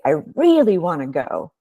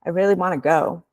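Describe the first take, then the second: First: "really" leaned on and falling in "I really wanna go"; stress on really. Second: "I really wanna go" with a light lift on "really"; plain emphasis. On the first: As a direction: press hard on "really". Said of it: "Emphasis is also important". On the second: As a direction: say it evenly with a small rise. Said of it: "So you might say". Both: Shown as a demonstration.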